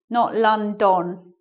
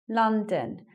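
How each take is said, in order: First: The second syllable has a full, clear vowel. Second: The second syllable has a reduced schwa vowel. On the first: The speaker calls it wrong. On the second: The speaker calls it right.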